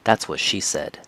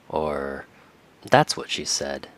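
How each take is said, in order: First: The word 'she' carries the main stress. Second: The main stress falls on another word, not 'she'. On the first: The speaker calls it right. "you must stress the word she. Okay, so it should sound like this" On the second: The speaker calls it wrong. "It just doesn't sound right"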